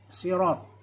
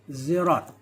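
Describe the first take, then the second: First: The word begins with an emphatic s sound. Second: The word begins with a z sound. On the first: "huruf sin terucapkan sot" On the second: "atau ze"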